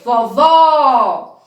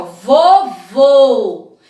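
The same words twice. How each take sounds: First: Vovó with a wide-open final ó. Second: Vovô with a closed final ô, lips rounded. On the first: Teacher to children, contrasting vovó: open ó. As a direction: open the mouth on the last ó of vovó. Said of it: "O som é aberto". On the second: Teacher to children, contrasting vovô: closed ô. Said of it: "Presta atenção". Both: Shown as a demonstration.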